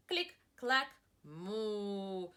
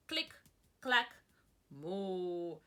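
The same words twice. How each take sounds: The two takes are said the same way.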